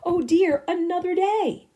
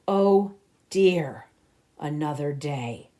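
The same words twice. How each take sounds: First: It is said in a cheerful, positive tone. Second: It is said in a gloomy, negative tone.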